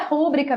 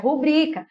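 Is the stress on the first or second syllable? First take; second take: first; second. First: The stress is on the first syllable. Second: The stress is on the second syllable. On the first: The speaker calls it wrong. "Toda proparoxítona tem acento, mas não é rúbrica" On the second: The speaker calls it right. "é rubrica"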